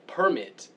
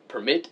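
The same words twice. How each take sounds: First: "Permit" stressed on the first syllable, PER-mit, higher; noun stress. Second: "Permit" stressed on the second syllable, per-MIT; verb stress. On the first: Speaker explaining the document, "Permit" stressed as PER-mit. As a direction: punch PER high in "Permit", let MIT drop. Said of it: "is usually a document of some kind". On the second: Speaker correcting people on the verb, "Permit" stressed as per-MIT. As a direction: put the weight on MIT in "Permit". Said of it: "Permit is a verb". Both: Shown as a demonstration.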